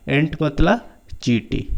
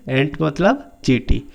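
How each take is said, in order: Both takes have the same delivery.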